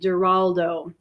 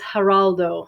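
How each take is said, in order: First: The name is said with English sounds. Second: The name is said with Spanish sounds. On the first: "she pronounced his name with a G, ... That's the English pronunciation" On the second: "The Spanish is"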